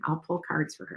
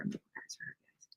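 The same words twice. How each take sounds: First: Said in the usual way. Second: Breathy whisper to yourself. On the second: Real, not acted. Streamer whispering a note to herself mid-stream. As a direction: mutter it under your breath, unvoiced.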